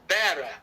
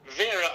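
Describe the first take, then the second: First: The name begins with a B sound. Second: The name begins with a V sound.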